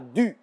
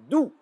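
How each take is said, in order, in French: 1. La voyelle se prononce comme 'u' en français. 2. La voyelle se prononce comme 'ou' en français. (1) "et non pas du" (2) "se prononce tout comme l'atout"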